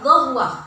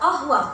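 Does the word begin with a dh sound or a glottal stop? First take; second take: dh sound; glottal stop. First: The word begins with a dh sound. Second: The word begins with a glottal stop. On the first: This is how Egyptians say it. "bagi orang Mesir dibaca dhahwah, kof dibaca dha" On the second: This is how Saudis say it.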